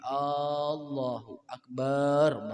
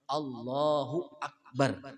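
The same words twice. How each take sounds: First: A vowel in the phrase is drawn out long. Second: No vowel in the phrase is drawn out. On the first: The speaker calls it wrong. "Kada boleh Allahu akbar namanya" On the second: The speaker calls it right. "Ya harus Allahu akbar"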